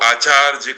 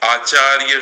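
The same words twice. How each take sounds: First: The final consonant cluster uses a 'j' sound. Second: The final consonant cluster uses a 'y' sound. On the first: This is how it is said in Bihar. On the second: This is the standard pronunciation.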